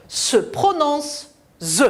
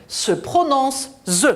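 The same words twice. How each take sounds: The two takes are said the same way.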